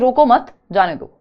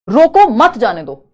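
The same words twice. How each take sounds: First: The pause comes after 'mat'. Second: The pause comes after 'roko'.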